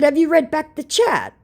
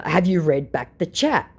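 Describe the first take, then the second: First: Sharp question. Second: Said in the usual way. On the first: Shown as a demonstration. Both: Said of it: "So I showed again".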